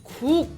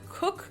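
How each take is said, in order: First: The vowel is tight with strongly stretched lips. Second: The vowel is a relaxed English-style vowel. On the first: The speaker calls it right. "we need to stretch our lips out even more" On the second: The speaker calls it wrong. "instead of going cook like this"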